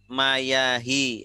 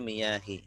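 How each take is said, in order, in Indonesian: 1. Vokal pertama adalah bunyi 'a' terbuka. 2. Vokal pertama adalah bunyi 'i' tertutup. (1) "ini belum benar" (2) "Jadi ini bacanya miyah"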